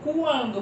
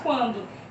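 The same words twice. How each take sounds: First: The U is sounded as a separate sound. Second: The U merges into a single sound. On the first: The speaker calls it wrong. "Você não fala quando" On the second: The speaker calls it right. "você fala quando"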